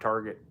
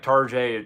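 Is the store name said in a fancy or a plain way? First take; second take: plain; fancy. First: The name is said with its ordinary plain pronunciation. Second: The name is said with a fancy, foreign-sounding pronunciation.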